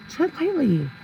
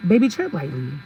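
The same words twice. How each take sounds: First: Pitched-up, teasing caution; high-pitched warning. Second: Said in the usual way. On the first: Real, not acted. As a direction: TREAD LIGHTLY in a much higher voice. Repeats the warning for emphasis.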